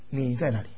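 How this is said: It sounds like a casual, offhand question. The asker is just passing time. "是随便的这个度过时间的问"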